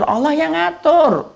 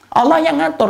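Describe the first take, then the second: First: Slow and weighty, "ngatur" drawn out; preacher repeats to congregation, slow and drawn out on "ngatur"; slow emphatic repeat. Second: "Allah" hit high and loud, the rest falling; preacher to congregation, punching "Allah" high and loud; stress on Allah. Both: Real, not acted.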